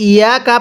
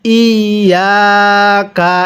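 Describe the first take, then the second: First: Quick, short ইয়াকা without tashdid; mistaken reading. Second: Very slow, level, drawn-out ইয়াকা; correct recitation. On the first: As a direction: toss off ইয়াকা with a single short ya. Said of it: "এটাকে কেউ ইয়াকা পড়বেন না". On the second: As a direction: dwell on the doubled ya of ইয়াকা. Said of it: "আরেকবার পড়ুন". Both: Shown as a demonstration.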